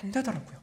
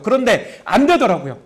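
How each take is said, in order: First: Softly, almost to himself, trailing off; a hushed, defeated confession; quiet admission. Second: Said in the usual way. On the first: Shown as a demonstration.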